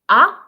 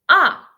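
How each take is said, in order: First: It is said with the second tone. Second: It is said with the fourth tone. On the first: "and then ah" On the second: "And the last one"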